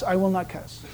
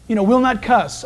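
First: Softer mumbled echo. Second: Said in the usual way. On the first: Shown as a demonstration. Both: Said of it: "Initial that".

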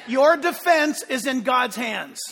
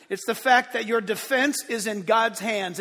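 First: Loud, slow preaching shout; emphatic proclamation. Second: Said in the usual way. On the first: Real, not acted. A preacher proclaiming to the congregation in a loud, slow shout. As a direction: drive the line home to the church. Preacher repeats the key line.

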